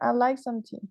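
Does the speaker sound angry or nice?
nice. It is said in a nice tone. The person is being polite. "This one is nicer"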